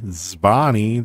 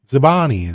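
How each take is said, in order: First: The word starts with two consonants together. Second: A short vowel separates the first two consonants. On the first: "that's hard to say" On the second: "you can say zibani. Zibani is fine"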